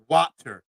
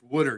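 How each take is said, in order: First: The first vowel sounds like the one in 'watt'. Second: The first vowel sounds like the one in 'wood'. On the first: The speaker calls it wrong. "Watt, as in J J Watt" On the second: The speaker calls it right. "That's how you say it"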